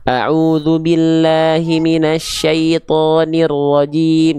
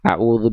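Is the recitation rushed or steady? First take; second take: steady; rushed. First: It is recited at a steady, orderly pace. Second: It is recited quickly and hurriedly. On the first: The speaker calls it right. "tertibkan bacaannya" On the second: The speaker calls it wrong. "Jangan sampai nyepetin"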